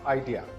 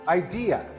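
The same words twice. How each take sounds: First: The stress is not on the second syllable. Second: The stress is on the second syllable. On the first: The speaker calls it wrong. "This word is not idea" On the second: The speaker calls it right. "The second syllable is the one that is stressed"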